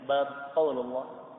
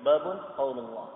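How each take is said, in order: First: Bab ends with no vowel at all. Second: Bab ends in un with a nasal. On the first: The heading word is left uninflected. "Bab disukun, dimatikan" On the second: The second word stands as a separate subject. "Babunnya di dhammah tain, dikasih dua dhammah"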